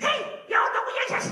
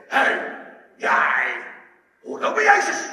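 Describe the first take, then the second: First: Squeaky, very high child imitation; even smaller girl. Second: Very loud, rough shouted accusation; soldier. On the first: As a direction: pipe up like a tiny accusing girl. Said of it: "nog een kleiner meisje". (piepklein meisjesstemmetje, heel hoog) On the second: Retold or imitated. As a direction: imitate a soldier yelling a challenge. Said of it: "komt er een soldaat naar hem toe". (brullende soldaat, beschuldigend)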